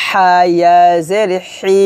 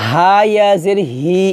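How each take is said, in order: First: হা ইয়া জের হি with a mid-throat h; correct throat h. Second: Plain "hee" at the end of হা ইয়া জের হি; wrong plain h. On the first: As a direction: tighten the throat for a raspy হি. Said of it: "হি বলতে হবে". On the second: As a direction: let হি come out without throat constriction. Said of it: "এটা বললে হবে না". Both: Shown as a demonstration.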